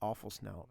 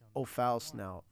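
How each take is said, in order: First: The name begins like the word awful. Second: The name begins like oh, then foul. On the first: The speaker calls it wrong. "we pronounce it awful snout" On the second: The speaker calls it right. "I think it should be pronounced oh, foul snout"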